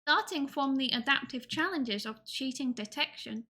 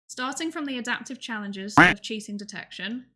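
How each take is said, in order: First: It is read in a cutesy baby-talk voice. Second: It is read in a normal speaking voice.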